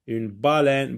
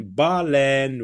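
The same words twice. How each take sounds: First: Said in the usual way. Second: "baleine" in two beats, ba, then leine; syllable by syllable. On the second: Shown as a demonstration. Word repeated split in syllables.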